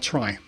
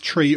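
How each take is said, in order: First: The vowel sounds like "eye", rhyming with "sky". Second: The vowel sounds like "ee", rhyming with "see". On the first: "or try" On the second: "you can say the word tree as tree or"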